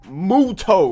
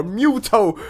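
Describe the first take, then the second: First: Muto said as MOO-toh; first pronunciation of Muto. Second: Muto said as MYOO-toh; alternative pronunciation of Muto. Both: Shown as a demonstration. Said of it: "however you say it".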